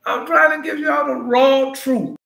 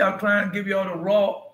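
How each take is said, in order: First: High, loud, slowed repeat; preaching emphasis. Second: Said in the usual way. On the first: Real, not acted. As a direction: drive the truth home the second time.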